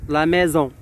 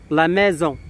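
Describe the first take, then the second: No difference in how they are said.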